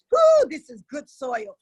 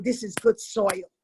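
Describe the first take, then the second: First: Slow, loud, delighted cry; louder, savoring delight; excited whoop. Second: Said in the usual way. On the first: Real, not acted. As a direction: whoop it out with joy. Savoring her own words.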